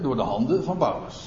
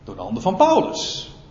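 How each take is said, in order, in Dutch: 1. De zin heeft geen speciale nadruk. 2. De zin wordt met sterke nadruk uitgesproken. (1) "Nou kun je verschillende accenten leggen" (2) "Je kunt de nadruk ook hierop leggen"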